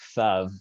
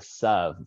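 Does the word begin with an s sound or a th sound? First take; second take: th sound; s sound. First: The word begins with a th sound. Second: The word begins with an s sound. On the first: "it really should be tha"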